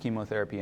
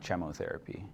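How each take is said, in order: First: The word starts with a hard k sound. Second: The word starts with a soft ch sound. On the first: The speaker calls it right. "it's pronounced chemotherapy" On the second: The speaker calls it wrong. "and not chemotherapy"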